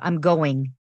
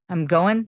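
First: The final g of going is pronounced. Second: The final g of going is dropped.

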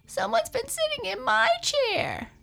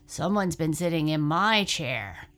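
First: It is said in a crying voice. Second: It is said in a low growl.

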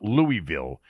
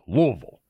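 First: The name is said the way outsiders say it. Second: The name is said the way locals say it. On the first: The speaker is not from the city. The speaker calls it wrong. "it's not Louisville" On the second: The speaker is from the city. The speaker calls it right. "that's how it's pronounced if you're from Louisville"

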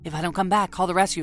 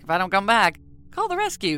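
First: It is said in a serious, ominous tone. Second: It is said in a lighthearted, joking tone.

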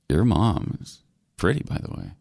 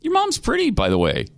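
First: It is said in a creepy, suggestive tone. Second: It is said in a plain, innocent tone. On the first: The compliment hints at unwanted interest. The speaker calls it wrong. "He didn't say it in that tone. You know, it's like" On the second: It is a harmless, friendly compliment. The speaker calls it right. "you could have just said"

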